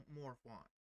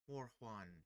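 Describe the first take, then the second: First: The name ends with a 'juan'-like sound. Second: The name ends with a 'juan'-like sound.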